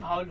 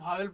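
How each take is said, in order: First: The second syllable has a weak, reduced vowel. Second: The second syllable has a clear 'e' vowel. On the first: This is the real pronunciation. The speaker calls it right. "लेकिन इसका real उच्चारण भावल होता है" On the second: This is how village people and teachers say it. The speaker calls it wrong. "देहात के लोग भावेल बोलते हैं"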